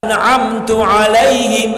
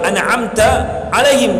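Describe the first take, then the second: First: The first word ends with a 'u' vowel. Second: The first word ends with an 'a' vowel. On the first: The speaker calls it wrong. "salah harokat" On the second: The speaker calls it right. "harus coba"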